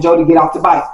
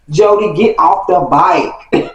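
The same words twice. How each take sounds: First: Said in the usual way. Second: Slow, spaced-out final warning; slow, emphatic order. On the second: Retold or imitated. Kid warning Jody before a fight, slow emphatic order. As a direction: draw out each word as a last order.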